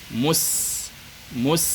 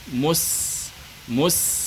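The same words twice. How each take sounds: No difference in how they are said.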